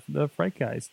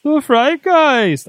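First: Said in the usual way. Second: High, slow, booming ghostly voice; spooky voice. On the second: Acted. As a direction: stretch it out like a haunting. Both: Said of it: "I can only say it that way".

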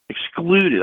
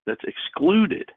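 First: Excluded hit high and loud; punched repeat. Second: Excluded stretched out slow and high; slow emphasis. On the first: Preacher repeating it to the call, Excluded high and loud. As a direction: slam the word Excluded home. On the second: Preacher to his call, drawing out excluded, slow and high. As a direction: lean hard on excluded, slowly. Preacher repeating key word. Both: Acted.

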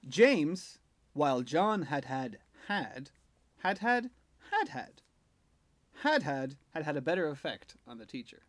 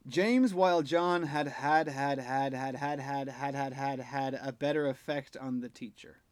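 First: James, then pauses that group each had had; with punctuation. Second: James, while John had had had read as one run-on without phrasing breaks; no punctuation. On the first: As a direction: break the hads into phrases with pauses. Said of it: "let's bring in some punctuation". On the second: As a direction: rattle off every had with no pauses. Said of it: "So first of all, with no punctuation". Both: Shown as a demonstration.

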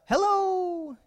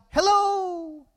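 First: High, thinner echoed call; long high hello, held back in volume. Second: High, drawn-out call into the woods; high-pitched holler; boy yelling out. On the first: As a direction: answer like an echo in the woods. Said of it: "he heard a". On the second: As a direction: call out hello, pitched well up. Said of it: "he yelled out". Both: Retold or imitated.

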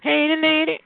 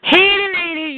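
First: High teasing call. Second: High, loud teasing call. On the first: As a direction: call her name out high. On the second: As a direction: holler at her playfully. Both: Acted. Calling out to caller.

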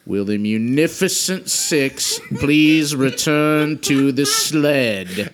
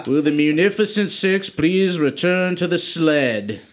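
First: Slow deliberate repeat. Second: Magically booming voice. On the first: Wizard repeats the embarrassing summons, slow and deliberate. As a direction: grudgingly spell it out one last time. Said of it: "I'm only going to say this one more time". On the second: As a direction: call it out like a booming magical loudspeaker. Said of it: "thaumaturgy to make my voice boom". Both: Acted.

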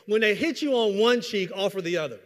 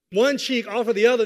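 First: Said in the usual way. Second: One cheek punched hard and loud; emphatic quote. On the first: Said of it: "the verse just said". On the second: Shown as a demonstration. Preacher hammering the verse to the congregation, emphatic. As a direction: hammer each word of the quote home. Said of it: "So when it says".

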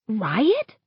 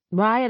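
First: "Riot?" with a steep rise at the end; questioning echo. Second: Said in the usual way. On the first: A narrator's reading. Chris echoing a friend's suggestion, "Riot?" rising into a question. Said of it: "Chris echoes".

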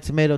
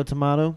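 First: "tomato" with a long ay in the middle; tuh-MAY-toh pronunciation. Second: "tomato" with an ah in the middle; tuh-MAH-toh pronunciation. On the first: Comparing regional sayings, "tomato" said tuh-MAY-toh. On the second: Comparing regional sayings, "tomato" said tuh-MAH-toh. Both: Shown as a demonstration. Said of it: "Is it like tomato, tomato".

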